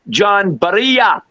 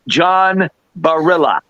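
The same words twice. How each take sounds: First: The name is said with a Spanish pronunciation. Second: The name is said with an American pronunciation. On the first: "the Spaniards they and they pronounce it" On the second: "in America here, we pronounce it"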